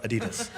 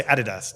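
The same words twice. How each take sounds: First: "Adidas" stressed on the middle syllable, uh-DEE-duhs; American "Adidas", soft and low, middle-stressed; American pronunciation. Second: "Adidas" stressed on the first syllable, AD-ee-dass; British "Adidas", front-stressed; British pronunciation. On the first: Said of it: "not Adidas". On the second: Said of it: "I'm British, so I say Adidas". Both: Shown as a demonstration.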